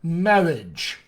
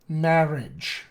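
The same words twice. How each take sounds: First: The R is made with rounded lips. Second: The R is made with the tongue. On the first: "use his lips to create this consonant roticity" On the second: "use an alveolar approximant"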